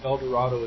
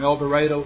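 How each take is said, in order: First: The name is said with a standard pronunciation. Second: The name is said with a Southern pronunciation. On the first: This is how the name would normally be said. "not pronounced El Dorado as it should be" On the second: This is how locals say the town's name. "We pronounce things differently in the South"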